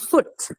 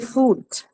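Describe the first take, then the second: First: The vowel is a short u sound. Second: The vowel is a long u sound. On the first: The speaker calls it right. "And short U is foot" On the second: The speaker calls it wrong. "particularly Indian English speakers, you say foot, right? That's not right"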